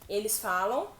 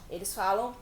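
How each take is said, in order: The two takes are said the same way.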